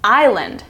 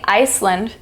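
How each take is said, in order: First: No S sound is heard in the middle. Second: An S sound is heard in the middle. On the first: The speaker calls it right. "You're saying island" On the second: The speaker calls it wrong. "We aren't pronouncing the S. We're not saying Iceland"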